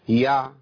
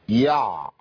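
First: The ain carries a brief, light sound without strain. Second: The ain sound is stretched out with effort. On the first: The speaker calls it right. "ما تزيدش عن كده خالص" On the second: The speaker calls it wrong. "ده صوت طبيعي؟ مش طبيعي"

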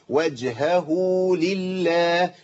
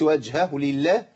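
First: A long u vowel follows the h. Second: The long u vowel after the h is dropped. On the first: The speaker calls it right. "يبقى لازم اقول ايه؟" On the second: The speaker calls it wrong. "ما تنفع. كده اسقطت حرف من القران"

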